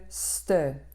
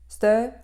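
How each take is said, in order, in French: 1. La fricative est prononcée avec plus de force. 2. L'occlusive est tenue avec plus de force. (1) "au lieu de ste" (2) "ste au lieu de"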